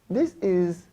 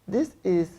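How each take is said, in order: Both takes have the same delivery.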